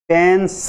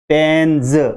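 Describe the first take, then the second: First: The word ends with a hissing s sound. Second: The word ends with a buzzing z sound. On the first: The speaker calls it wrong. "ऐसे नहीं बोलना चाहिए" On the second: The speaker calls it right. "इसका सही उच्चारण होगा आपके पेन्ज"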